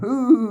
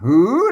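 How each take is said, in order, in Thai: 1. พยางค์นี้เป็นเสียงพิเศษ ไม่ขึ้น 2. พยางค์นี้เป็นเสียงขึ้น (1) "ไอ้จุดนี่มันคือเสียงโทพิเศษ" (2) "เสียงจัตวา"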